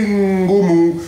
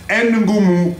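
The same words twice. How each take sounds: First: "Ngoumou" with a held humming N into the g; correct pronunciation. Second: "Ngoumou" with N split off as "enn"; mispronounced name. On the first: Shown as a demonstration. Father explaining to daughter, "Ngoumou" with merged, held Ng. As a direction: say "Ngoumou" as one word, lingering on Ng. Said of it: "ils ont du mal à prononcer". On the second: Retold or imitated. Father explaining what they say at school, "Ngoumou" as "enn-goumou". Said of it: "Donc, ils disent Ngoumou".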